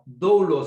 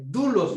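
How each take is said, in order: First: The first vowel glides from o to u. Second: The first vowel is a single pure u. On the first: The speaker calls it wrong. "no doulos" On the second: The speaker calls it right. "muy bien dicho"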